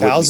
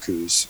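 First: The vowel sounds like the one in 'cow'. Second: The vowel sounds like the one in 'coo'. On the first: This is the officially correct pronunciation. "cows is the proper way of saying it" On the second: This is how most people, including locals, say it. "everybody calls them coos"

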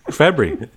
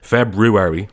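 First: The word is rushed and mumbled quickly. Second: The first R is pronounced clearly. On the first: "like skipping past it so that nobody notices you said it" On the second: "like me, emphasizing the R"

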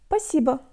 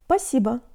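First: An S sound is dropped from the word. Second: An S sound is dropped from the word.

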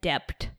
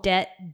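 First: The word is said with the b sounded. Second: The word is said with a silent b.

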